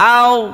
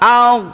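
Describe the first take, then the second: The two takes are said the same way.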